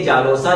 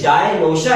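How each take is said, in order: First: Said as one word with a plain 's' sound. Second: Said as two parts with an 'sh' sound. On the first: The speaker calls it wrong. "हालांकि ये जानोसा नहीं है" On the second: The speaker calls it right. "ये जाए नोशा है"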